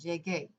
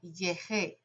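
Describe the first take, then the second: First: The middle consonant is a hard g sound. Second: The middle consonant is a soft h-like sound. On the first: The speaker calls it right. "it allows you to make that hard G sound" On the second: The speaker calls it wrong. "G before E is a soft G sound or an H sound"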